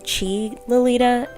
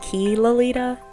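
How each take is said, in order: First: The first word begins with a ch sound. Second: The first word begins with a k sound. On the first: The speaker calls it right. "It's actually Chi Lolita" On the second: The speaker calls it wrong. "not Key Lolita"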